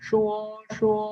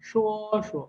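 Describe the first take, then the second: First: Both syllables carry a full high level tone. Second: The second syllable is short, soft and neutral. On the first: "अब दोनों पे first tone होगी" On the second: "इस पे neutral tone समझे ... ये शॉर्ट भी हो जाएगा और सॉफ्ट भी"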